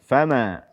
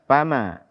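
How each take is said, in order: The two takes are said the same way.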